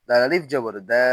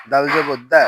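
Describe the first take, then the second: First: Final দা with a long a; দা held long; stretched vowel. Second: Final দা with a short a; no stretch. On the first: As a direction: draw out the last দা. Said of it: "জবরে আমরা টান দিব". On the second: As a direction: cut the last দা short. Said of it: "তখন কোথাও টান দিব না". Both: Shown as a demonstration.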